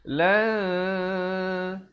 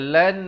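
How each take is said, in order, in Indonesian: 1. Bunyi n disembunyikan dalam bunyi sengau yang ditahan. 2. Bunyi n dibunyikan dengan jelas dan penuh. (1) "disembunyikan bunyi nun matinya di belakang ta dengan kadar dua harakat" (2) "lan itu bunyi izhar. Itu salah"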